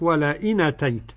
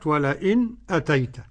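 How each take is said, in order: First: The glottal stop is dropped, its vowel moved back. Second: A brief pause comes before the glottal stop. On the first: This is one transmitted reading of the text. "يعني النقل الورش" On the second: This is another transmitted reading of the text. "السكت بالنسبة لخلف حمزة"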